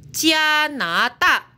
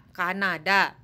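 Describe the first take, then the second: First: Slow "Kanada" said as "Jianada", rising; Mandarin reading. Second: Said in the usual way. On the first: Shown as a demonstration. Teacher gives the Mandarin for "Kanada".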